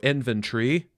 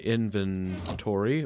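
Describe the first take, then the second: First: It is said in a British accent. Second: It is said in the speaker's usual accent.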